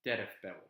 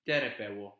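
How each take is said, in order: First: Terefpeu said with an added F sound before peu; teref-peu with the F put in; wrong form. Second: Terepeu said without an F sound between tere and peu; tere-peu run straight together, no F; correct form. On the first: Teacher showing the wrong form terefpeu, F added. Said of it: "and not". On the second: Teacher giving the correct form terepeu, no F. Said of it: "that's why it's terepeu and not". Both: Shown as a demonstration.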